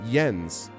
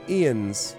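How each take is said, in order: First: The name begins with a y sound. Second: The name begins with a vowel sound. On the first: "like if it was Y, like Jens, that's fine" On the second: "it's pronounced I E N S"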